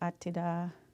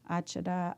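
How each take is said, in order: First: The middle consonant is a t sound. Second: The middle consonant is a ch sound. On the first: "they recall hearing it as Atida" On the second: "Achada is just its own word"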